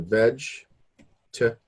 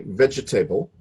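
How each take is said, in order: First: A middle syllable is cut out. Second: Every syllable is pronounced, as spelled. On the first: The speaker calls it right. "We say vegetable. So these syllables... they're cut right out" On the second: The speaker calls it wrong. "we don't say vegetable"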